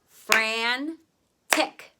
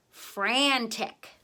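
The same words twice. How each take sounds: First: "Fran-tick" with drawn-out Fran, pause, crisp tick; broken into syllables. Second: Said in the usual way. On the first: Shown as a demonstration. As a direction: dictate "Fran-tick" louder, in two beats. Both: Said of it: "break the word apart".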